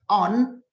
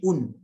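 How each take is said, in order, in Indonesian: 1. Kata itu diucapkan dengan vokal 'o'. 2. Kata itu diucapkan dengan vokal 'u'. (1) "Tapi kalau on, nah bisa kita informalkan" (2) "Jadi un"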